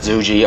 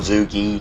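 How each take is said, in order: First: The word ends with a 'jee' sound. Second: The word ends with a 'gee' sound. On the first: "not "zuji"" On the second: "or "zugi.""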